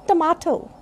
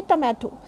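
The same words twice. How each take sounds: First: Tomato with a long ah, tuh-MAH-toh; correct pronunciation. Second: Tomato with a short a, tuh-MAE-to; common mispronunciation. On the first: Teacher correcting tomato for learners, tuh-MAH-toh. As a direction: open the middle of tomato to ah. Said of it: "but this is tomato". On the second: Teacher showing what people generally say, tuh-MAE-to. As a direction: say tomato with the a of cat. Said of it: "Generally we say". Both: Shown as a demonstration.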